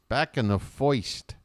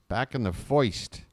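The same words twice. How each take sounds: The two takes are said the same way.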